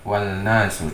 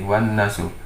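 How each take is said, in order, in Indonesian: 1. Bunyi L terdengar jelas sebelum huruf n. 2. L melebur menjadi bunyi n yang dobel. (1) "tidak wal nasu" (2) "tapi menjadi wan nasu"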